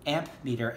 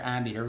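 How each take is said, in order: First: A clear p sound is heard in the middle. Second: No p sound is heard in the middle. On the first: This is the original form of the word. "it was actually called an amp meter" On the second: This is the later, current form of the word. "It became a silent P"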